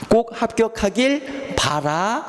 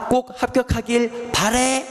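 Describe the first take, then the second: First: The last word ends with an 'a' vowel. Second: The last word ends with an 'ae' vowel. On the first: The speaker calls it right. "요게 맞는 거예요" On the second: The speaker calls it wrong. "틀려요"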